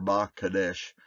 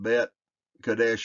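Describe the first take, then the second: First: The prefix is said as the short sound 'ba'. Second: The prefix is said as the full sound 'bet'. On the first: The speaker calls it right. "you just Ba" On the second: The speaker calls it wrong. "You don't say Bet"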